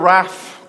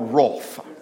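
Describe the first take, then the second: First: The vowel does not rhyme with broth. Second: The vowel rhymes with broth. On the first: "You have to be Scottish for that one" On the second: "as in broth"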